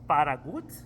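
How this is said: The name is said with a Spanish pronunciation. This is how the name would sound as a Spanish name. "if it's a Spanish name, it would essentially be"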